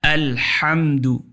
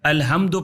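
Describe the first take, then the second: First: The h comes from the middle throat. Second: The h is a light breathy sound. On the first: The speaker calls it right. "गले के दरमियान से हा का तलफ़ुज़ होता है" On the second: The speaker calls it wrong. "ये दो चश्मिया है अलहम्दु पढ़ेंगे तो ये गलत है"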